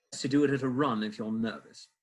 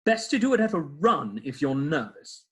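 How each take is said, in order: First: A light British accent on the line. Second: Said in the usual way. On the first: Shown as a demonstration. Actor redoing his favourite line, lightly British. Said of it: "I should have done it with this". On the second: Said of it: "he says".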